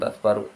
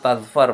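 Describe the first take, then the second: First: The word ends with an added u vowel. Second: The word ends on the consonant r. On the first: The speaker calls it wrong. "bukan tazfaru" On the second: The speaker calls it right. "Tazfar itu tazfar bukan tazfaru"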